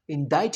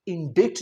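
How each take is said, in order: First: इंडाइट as "in-dite", silent c; correct pronunciation. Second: इंडिक्ट as "in-dikt", sounded c; mispronunciation. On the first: Teacher showing the correct word, "indite" इंडाइट. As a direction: say इंडाइट rhyming with kite. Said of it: "इंडाइट कहना है". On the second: Teacher showing what not to say, "indikt" इंडिक्ट. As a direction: say इंडिक्ट as spelt. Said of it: "इंडिक्ट नहीं कहना". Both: Shown as a demonstration.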